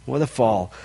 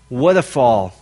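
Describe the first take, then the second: First: Softer repeat of "What a fall", dropped low and hushed; quiet echo. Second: Said in the usual way. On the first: Shown as a demonstration. Preacher repeats it softly to the congregation, quiet. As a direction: let "What a fall" sink to a sad hush.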